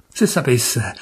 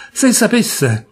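First: Said in the usual way. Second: A choked-back cry of se sapesse; pleading rise. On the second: A narrator's reading. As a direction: lift se sapesse into a higher plea. Repeated plea, second take.

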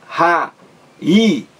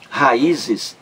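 First: "raízes" broken into ra, í, zes with pauses; syllable by syllable. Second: Said in the usual way. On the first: Shown as a demonstration. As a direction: separate the three syllables of "raízes", lifting the "í". ("raízes" silabado, com pausas entre ra, í, zes) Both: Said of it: "três sílabas".

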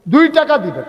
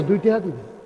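First: দুই punched high and loud; stress on দুই. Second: Said in the usual way. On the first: Real, not acted. Preacher urging every listener to give two taka, stressing দুই. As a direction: hit দুই hard the second time.

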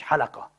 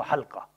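First: حلقة said ha-LA-qa, with a vowel between l and q; حلقة as ḥalaqa, the mistaken reading; حلقة pronounced ḥalaqa with an extra a; wrong pronunciation. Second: حلقة said ḥal-qa, l closed straight onto q; حلقة as ḥalqa, no vowel after the l; حلقة pronounced ḥalqa, two syllables; correct pronunciation. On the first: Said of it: "مش حلقة، اسمها حلقة". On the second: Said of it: "اسمها حلقة". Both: Shown as a demonstration.

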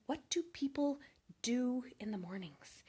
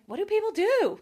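First: Hushed whisper. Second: Higher and louder, baffled exclamation; exasperated outburst. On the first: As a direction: whisper it to yourself, baffled. Puzzled early riser asking herself. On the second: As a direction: throw the question out loud in disbelief. Same question asked again aloud. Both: Retold or imitated.

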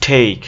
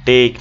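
First: "টেক" as theik, louder, with aspirated t and ei glide; English-style "টেক", vowel gliding to i; corrected English pronunciation. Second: Said in the usual way. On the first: Shown as a demonstration. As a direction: punch out "টেক" with breath on the t.

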